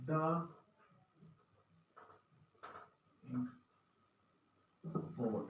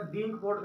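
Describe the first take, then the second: First: "the ink pot" said slowly, with a long pause between each word; careful word-by-word teaching demo; slow, separated words. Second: "the ink pot" blurred fast into one rushed chunk; fluent native-speed run of words; fast, run together. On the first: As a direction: space out "the", "ink" and "pot" one by one. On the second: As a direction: rattle off "the ink pot" quickly. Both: Shown as a demonstration. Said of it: "लेकिन इसको फटाफट मैंने".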